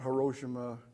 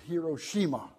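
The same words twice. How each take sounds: First: It is pronounced the common American English way. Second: It is pronounced the way people in Japan say it. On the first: The speaker calls it wrong. "it's not Hiroshima" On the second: The speaker calls it right. "That's the way they pronounce it over there"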